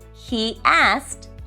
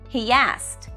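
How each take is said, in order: First: The two words are said separately. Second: An extra sound links the two words. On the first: "we often say" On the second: "more like he asked"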